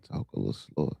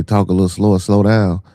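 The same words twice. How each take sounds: First: Quietly read comment. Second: Louder read comment. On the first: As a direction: read the comment softer, almost under the breath. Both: Retold or imitated. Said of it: "You say".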